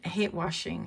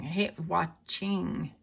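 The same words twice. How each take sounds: First: "washing" run together, no CH sound; slurred WASHING. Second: "watching" drawn out very slowly with a clear CH; over-enunciate WATCH-ING, syllable by syllable; slow, deliberate "watching"; careful correction. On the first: Real, not acted. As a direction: say "washing" with a soft SH in the middle. Mispronounces, then corrects the word herself. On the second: Shown as a demonstration. Slow correction of her own slip.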